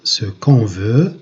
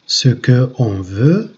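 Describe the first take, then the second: First: The vowel of 'que' is dropped before 'on'. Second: The vowel of 'que' is kept before 'on'. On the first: The speaker calls it right. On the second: The speaker calls it wrong.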